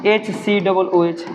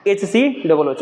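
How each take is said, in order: First: "H C double O H" said very slowly, each letter separate; slow spelled-out formula. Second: Said in the usual way. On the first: Shown as a demonstration. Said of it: "क्या इसको हम ऐसा लिख सकते हैं". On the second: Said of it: "या चीज़ हम ऐसा ही ना पढ़े थे लोग".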